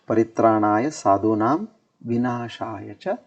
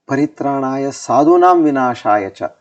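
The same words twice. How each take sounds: First: The pause comes after sadhunam. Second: The pause comes after vinashaya cha. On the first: The good are protected and the wicked destroyed. The speaker calls it right. "There you should have a comma, meaning that pause" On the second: The good people are the ones being destroyed. The speaker calls it wrong. "If we say then comma and we say dushkrutam"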